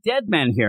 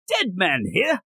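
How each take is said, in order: First: It is said in a plain, normal accent. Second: It is said in a put-on British accent.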